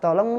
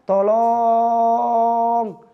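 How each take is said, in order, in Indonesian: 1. Vokal o-nya pendek dan wajar. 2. Vokal o-nya dipanjangkan. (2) "ada sebab antum memanjangkan lafal"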